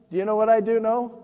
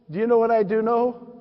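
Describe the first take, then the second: No difference in how they are said.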